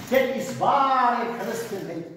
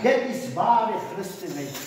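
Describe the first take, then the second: First: Dit is ware christenheid, slow, each word weighted, leaning on Dit; slow emphatic repeat. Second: Said in the usual way. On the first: Shown as a demonstration. Preacher repeating his point to the congregation, slow and weighty. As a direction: drive home Dit is ware christenheid slowly with a strong Dit.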